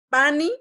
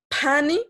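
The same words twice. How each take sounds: First: The p is plain, without a puff of air. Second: The p is aspirated, with a puff of air. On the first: It means to carry. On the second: It means to touch something.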